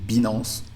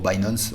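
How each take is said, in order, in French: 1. Le nom se prononce à la française. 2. Le nom se prononce à l'anglaise.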